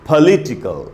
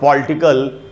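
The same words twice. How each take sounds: First: The stress is on the second syllable. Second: The stress is not on the second syllable. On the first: The speaker calls it right. "ली में जो ई है उधर ही रुकना है" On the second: The speaker calls it wrong. "हमको इसको नहीं पढ़ना चाहिए"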